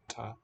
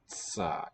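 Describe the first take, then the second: First: A crisp t with a quick release. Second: A slow release with a hiss after t. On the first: "a plain T, ta, ta, unvoiced" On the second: "if you slow down how quickly you withdraw your tongue"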